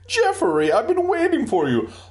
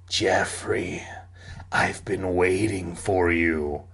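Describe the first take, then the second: First: The voice imitates a neighing horse. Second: The voice is rough and raspy. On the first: The speaker calls it wrong. "not as in a hoarse voice, as in like, nay" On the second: The speaker calls it right. "a hoarse voice rasped"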